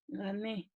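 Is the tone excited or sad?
sad. It is said in a sad, unmotivated way.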